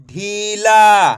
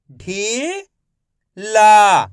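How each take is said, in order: First: Said in the usual way. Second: ढीला drawn out very slowly, syllables apart; teacher sounding out ढीला slowly. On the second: Shown as a demonstration. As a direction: stretch ढीला into ढी and ला. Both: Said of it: "मैं किस तरीके से एक एक अक्षर का उच्चारण करके".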